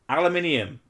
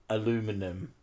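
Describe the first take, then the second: First: The word is said the British way. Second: The word is said the American way. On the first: The speaker calls it right. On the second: The speaker calls it wrong.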